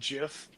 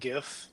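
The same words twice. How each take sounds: First: It begins with a soft j sound. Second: It begins with a hard g sound. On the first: The speaker calls it wrong. "I said GIF" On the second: The speaker calls it right. "and not GIF"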